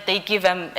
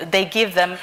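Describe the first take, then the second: No difference in how they are said.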